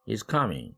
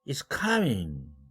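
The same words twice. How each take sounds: First: The pitch falls on the last syllable. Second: The pitch jumps very high at the end. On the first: It is a plain statement. "ming이 이제 내려오는 거죠" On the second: The speaker is surprised. "사까지 초고음으로 올라갔어요"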